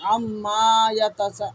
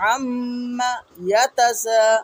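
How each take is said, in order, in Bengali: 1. প্রথম শব্দটি পরের শব্দের সঙ্গে টেনে বলা হয়েছে। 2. প্রথম শব্দের পরে স্বর একটু থেমে যায়। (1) "অনেকে আম্মা বলার সময় টান দিয়ে ফেলে" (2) "আম্মা বলে আওয়াজকে অফ করে দিতে হবে"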